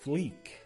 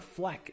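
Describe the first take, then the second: First: The vowel is a long 'ee' sound. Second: The vowel is a short 'eh' sound. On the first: The speaker calls it right. "it's actually Fleek" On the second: The speaker calls it wrong. "it's not Fleck"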